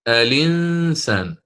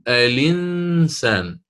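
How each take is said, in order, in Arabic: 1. تبدأ الكلمة بحرف علة قبل اللام. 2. تبدأ الكلمة بحرف علة قبل اللام.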